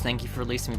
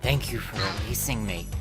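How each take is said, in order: First: It is said in a plain, neutral voice. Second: It is said with a sigh, tired and exasperated.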